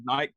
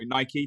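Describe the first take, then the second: First: The name is pronounced the British way. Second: The name is pronounced the American way. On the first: "in the U K, we said Nike" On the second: "depending on which side of the pond you are"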